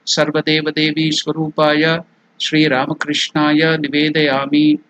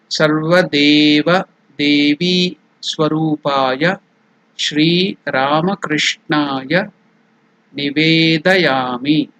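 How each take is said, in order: First: It is recited quickly in one flow. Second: It is recited slowly, word by word. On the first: "Now I'll do it completely" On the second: "I have showed you to do the pronunciation in a very slow way"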